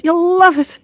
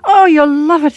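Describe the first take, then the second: First: Very high Irish lilt, leaning on love; delighted Irish repeat. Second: High, louder Irish voice, full of delight; delighted Irish gush. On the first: Check-in girl assures the traveller, delighted Irish voice. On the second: Check-in girl enthuses about Ireland, delighted Irish voice. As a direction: beam with delight in an Irish lilt. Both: Acted. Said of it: "her face beamed delight".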